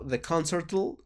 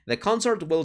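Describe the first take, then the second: First: Will shrinks to an L sound after concert. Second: The word will is said fully and separately. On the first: The speaker calls it wrong. "Aquí sería raro decirlo" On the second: The speaker calls it right. "vamos a dejarlo normal"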